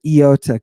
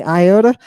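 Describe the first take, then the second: First: Iota said "ee-OH-ta", starting with a clear ee sound; the right reading of "Iota" as "ee-OH-ta"; Greek pronunciation. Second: Iota said as "eye-OH-da", starting with an English eye sound; the wrong reading of "iota" as "eye-OH-ta"; wrong pronunciation. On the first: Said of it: "Don't say iota, say iota". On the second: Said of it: "Don't say iota". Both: Shown as a demonstration.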